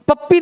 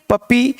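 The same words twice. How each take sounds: First: First पप्पी as "pap-pi", p held; geminated पप्पी; doubled consonant. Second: Second पप्पी as "pa-pee", one p; undoubled पप्पी; single consonant. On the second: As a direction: say पप्पी without doubling the p. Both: Shown as a demonstration. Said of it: "नहीं".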